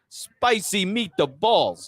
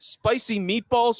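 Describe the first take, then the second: First: It is said with an exaggerated Italian inflection. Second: It is said in a plain American accent.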